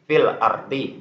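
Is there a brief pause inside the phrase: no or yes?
no. The two words run together without any stop. "jadi tidak ada berhenti, tidak ada jedah"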